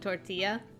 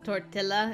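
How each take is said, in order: First: The double L is said as a Y sound. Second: The double L is said as an L sound. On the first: The speaker calls it right. "instead of tortilla" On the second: The speaker calls it wrong. "she pronounces it tortilla"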